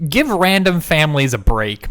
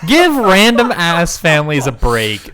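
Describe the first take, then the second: First: A louder, pleading "give random families a break"; emphatic plea. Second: "Give" hit hard, the rest slow and loud; louder, slower plea. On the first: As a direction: push the complaint out with feeling. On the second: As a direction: drag it out loud for effect. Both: Real, not acted. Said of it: "venting about the film".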